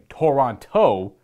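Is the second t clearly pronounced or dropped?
pronounced. The second t is clearly pronounced.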